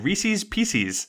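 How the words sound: It is said with an Ohio regional pronunciation. "They say Reese's Pieces"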